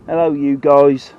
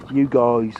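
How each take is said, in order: First: Drawn-out, louder American hello, lightly mocking; mock American greeting. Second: Said in the usual way. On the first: Shown as a demonstration. Fisherman mocking American talk, drawn-out American greeting. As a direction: stretch out guys like a mock American vlogger. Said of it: "Ain't how you speak in bloody Norfolk". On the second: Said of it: "what a word, eh?".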